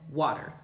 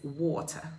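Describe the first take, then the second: First: The T is a quick flap like D. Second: The T is a clear, crisp T sound. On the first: This is the American way of saying it. "that word has that flap T... we give it that fast D treatment, and we call it water" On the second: This is the British way of saying it. "But in the U K, in British English, it's water... you hear that T"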